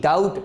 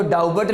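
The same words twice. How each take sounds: First: डाउट with the b left silent; डाउट, vowel straight into t. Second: डाउबट with the b sounded out; an extra b syllable in डाउबट; wrong pronunciation. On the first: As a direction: say doubt correctly as डाउट, no b. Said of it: "क्या पढ़ते हैं इसको". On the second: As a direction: say doubt wrongly as डाउबट, b audible. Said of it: "आप इसको डाउबट नहीं पढ़ते". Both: Shown as a demonstration.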